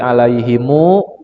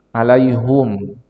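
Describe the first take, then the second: First: The word ends with an added 'mu' syllable. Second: The word ends in 'hum' with a u vowel. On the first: This is how the earlier reading tradition recites it. "Tadi alaihimu" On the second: This is how the current reading tradition recites it. "sekarang alaihum"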